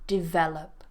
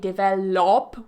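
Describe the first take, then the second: First: The last syllable has a weak schwa vowel. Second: The last syllable has a full 'op' vowel. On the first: The speaker calls it right. "it's a schwa again" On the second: The speaker calls it wrong. "you're not saying develop with an op"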